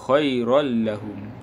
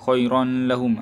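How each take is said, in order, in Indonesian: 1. n menyatu ke l tanpa dengung nasal. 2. n menyatu ke l dengan dengung nasal yang ditahan.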